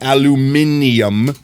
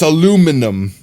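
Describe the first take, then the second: First: It has an extra syllable, five in all. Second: It has no extra syllable, four in all. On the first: The speaker calls it wrong. "There's no extra I there. It's not aluminium" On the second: The speaker calls it right. "It's aluminum"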